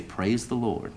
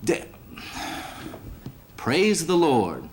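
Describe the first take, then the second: First: Preacher's instruction. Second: A hammed-up slow praise the Lord; kid catches himself. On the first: Acted. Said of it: "look up to the sky and say". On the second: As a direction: bite back the curse, then say it slow and proud. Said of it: "the little kid looks up to the sky and he goes".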